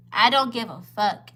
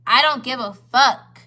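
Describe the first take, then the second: First: Said in the usual way. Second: Slow, loud, leaning hard on each word; emphatic. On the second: Real, not acted. To the men at the table, slow and loud and defiant. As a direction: make it land as a flat refusal.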